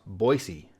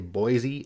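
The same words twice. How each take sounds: First: The middle consonant is an s sound. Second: The middle consonant is a z sound. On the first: The speaker calls it right. "but it's actually pronounced Boise" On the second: The speaker calls it wrong. "say Boise as if the S is a Z"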